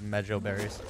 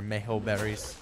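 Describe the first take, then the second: First: "mejo" with an English J sound; first syllable of "mejo" like "medge"; MEH-joh pronunciation. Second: "mejo" with an H sound for the J; first syllable of "mejo" like "may"; MAY-ho pronunciation. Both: Shown as a demonstration. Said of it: "depending on how you pronounce it".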